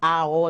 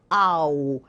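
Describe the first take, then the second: First: The two vowels are said as separate sounds. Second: The vowels blend, ending in a closed u-like sound. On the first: The speaker calls it wrong. "eu não digo esse A O, não" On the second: The speaker calls it right. "Eu fecho um pouquinho esse, esse U, esse O"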